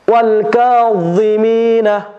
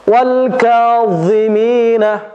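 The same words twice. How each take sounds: The two takes are said the same way.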